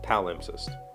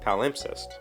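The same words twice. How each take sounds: First: The stress falls on the first syllable. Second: The stress falls on a later syllable. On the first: "the pronunciation guide puts the emphasis on pal" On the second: "I would have said palimpsest"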